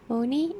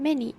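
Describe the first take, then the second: First: The suffix's vowel is full. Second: The suffix's vowel is reduced. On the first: "pronounced moni in G A" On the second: "many in R P"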